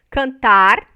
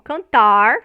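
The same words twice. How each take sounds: First: The final R is a trilled or tapped R. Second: The final R is a curled-back retroflex R. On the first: This is how it is said in the south of Brazil. "como é pronunciado no sul do Brasil" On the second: This is how rural São Paulo speakers say it. "como é pronunciado pelo, vamos dizer assim, o caipira lá de São Paulo"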